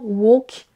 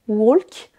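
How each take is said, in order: First: The L sound is silent in the word. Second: The L sound is pronounced in the word. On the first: The speaker calls it right. "mais bien walk" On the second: The speaker calls it wrong. "le L ne se prononce pas, on ne dira pas walk"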